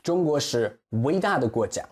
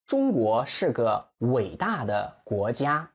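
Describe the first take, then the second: First: Said in the usual way. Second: 中国是个伟大的国家 slowly, ends of 伟大 and 国家 drawn out; slow, stressed model sentence. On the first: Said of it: "Again, the stress". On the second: Shown as a demonstration. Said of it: "Extend the end".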